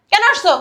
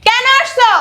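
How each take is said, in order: First: Loud, high, falling challenge; angry demand. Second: Very high, loud, falling yell; furious shout. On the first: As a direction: demand an answer angrily. (রাগী গলায় কৈফিয়ত চাওয়া) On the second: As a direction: shout the demand in a rage. Repeats demand, escalating. (রাগে চিৎকার করে কৈফিয়ত চাওয়া) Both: Acted.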